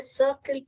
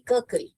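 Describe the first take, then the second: First: The word begins with a soft s sound. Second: The word begins with a hard k sound. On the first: The speaker calls it right. "सी अपना soft sound निकालता है जो कि स है" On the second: The speaker calls it wrong. "यहाँ पर भी क डाला तो क्या हो जाएगा? ककल हो जाएगा, जो कि गलत है"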